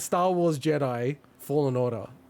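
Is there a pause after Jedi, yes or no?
yes. There is a pause after Jedi.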